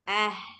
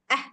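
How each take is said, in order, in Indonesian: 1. Bunyi h tetap mengalir bersama napas. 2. Bunyi h berhenti mendadak, terpotong. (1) "suaranya tetap mengalir" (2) "Jadi bukan ah, habis"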